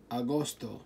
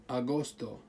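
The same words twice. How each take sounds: The two takes are said the same way.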